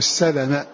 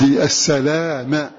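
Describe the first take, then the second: First: The vowel after the L is short. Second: The vowel after the L is long. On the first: "فهم يقرؤون بالقصر بلا مد بعد اللام" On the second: "بالمد"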